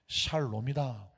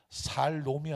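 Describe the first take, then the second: First: The word begins with an sh sound. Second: The word begins with a plain s sound. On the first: The speaker calls it right. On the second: The speaker calls it wrong. "살롬이 아니다"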